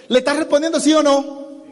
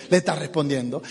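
First: RESPONDIENDO SÍ O NO pitched high, challenging; insistent question. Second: RESPONDIENDO stated low and softer; settled answer. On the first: Trainer challenges the audience on "respondiendo sí o no", insistent. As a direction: press "sí o no" in a raised voice. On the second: Trainer confirms "respondiendo" to the audience, low and matter-of-fact. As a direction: drop "respondiendo" low, as a conclusion. Answers his own question. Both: Shown as a demonstration.

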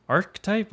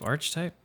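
First: "Archetype" said as ARK-type, questioning; ARK-type pronunciation. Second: "Archetype" said as ARCH-type, questioning; ARCH-type pronunciation. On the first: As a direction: try "Archetype" as two syllables with a hard k, rising. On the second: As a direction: try "Archetype" with a ch as in church, softer and rising. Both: Shown as a demonstration.

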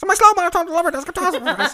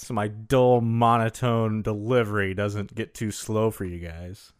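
First: Fast, high, sped-up playback voice; sped up chipmunk voice. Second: Slow, monotone delivery. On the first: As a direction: rattle it off like sped-up audio. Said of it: "sped up 1.9 times". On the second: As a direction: drone it out slowly. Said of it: "pretty slow and monotone". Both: Pretend.

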